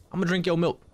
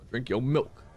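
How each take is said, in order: First: Silly cow voice. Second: Said in the usual way. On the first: Pretend.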